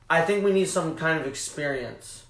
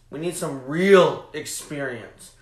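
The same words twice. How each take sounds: First: Said in the usual way. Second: "real" slowed and punched louder; stress on real. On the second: Real, not acted. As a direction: lean hard on "real", slow it down.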